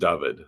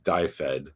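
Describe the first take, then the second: First: The name is said the Welsh way. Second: The name is read by English spelling habits. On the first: "in Welsh, it's pronounced David" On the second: "American readers may read that as die fed"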